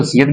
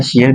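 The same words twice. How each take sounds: First: "سیت" with a plain s at the start; "سیت", first sound s, not sh; S reading. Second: "شیت" with sh at the start; "شیت", first sound sh, not s; SH reading. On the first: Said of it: "اس کو سیت بھی کہتے ہیں". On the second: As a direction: say "شیت" as shi-at. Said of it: "شیت بھی کہتے ہیں". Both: Shown as a demonstration.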